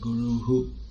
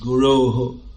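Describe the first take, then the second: First: The word ends on a plain vowel. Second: The word ends with a breathy h sound. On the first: The speaker calls it right. "actually the word is Guru" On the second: The speaker calls it wrong. "it doesn't make any sense at all to say Guru"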